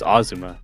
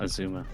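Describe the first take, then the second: First: The stress is on the first syllable. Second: The stress is on the second syllable. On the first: The speaker calls it right. "it's the first syllable that's stressed" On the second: The speaker calls it wrong. "not the second one"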